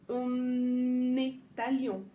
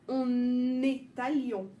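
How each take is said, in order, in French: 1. Le son n se lie bien à la voyelle suivante. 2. Le son n se lie bien à la voyelle suivante.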